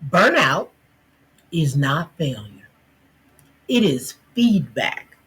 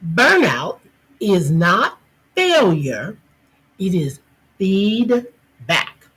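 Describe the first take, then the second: First: It is said at normal volume. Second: It is said louder.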